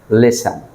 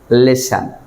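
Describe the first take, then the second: The two takes are said the same way.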